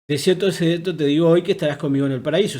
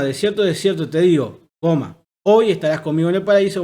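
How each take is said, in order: First: There is no break between 'digo' and 'hoy'. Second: There is a break between 'digo' and 'hoy'.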